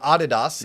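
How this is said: The name is said the German way.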